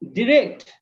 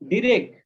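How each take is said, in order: First: The final T sound is clearly pronounced. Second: The final T sound is dropped. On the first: The speaker calls it right. "It would be direct. You have to incorporate with T" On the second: The speaker calls it wrong. "not direct"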